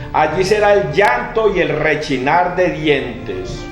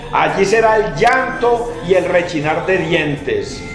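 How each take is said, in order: The two takes are said the same way.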